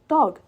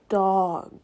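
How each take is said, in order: First: The word is said quickly as one unit. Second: The word is said slowly with stretched sounds. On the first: The speaker calls it wrong. "I don't say the full word right away or quickly" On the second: The speaker calls it right. "I try to say the letter slowly"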